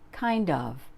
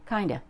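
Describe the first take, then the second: First: Both words are said fully and separately. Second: The words run together into one reduced form.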